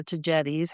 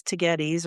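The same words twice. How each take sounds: First: Tagetes with a soft g; "jet" in the middle of Tagetes. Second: Tagetes with a hard g; "get" in the middle of Tagetes. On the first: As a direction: say Tagetes as tuh-JET-eez. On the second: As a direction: say Tagetes as tuh-GET-eez. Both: Shown as a demonstration. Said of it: "however you pronounce it".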